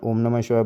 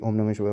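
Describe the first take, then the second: First: It is said slowly and clearly. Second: It is said fast and hurriedly.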